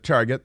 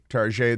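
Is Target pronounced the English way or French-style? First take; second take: English; French. First: The word is pronounced the plain English way. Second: The word is pronounced with a French-style sound.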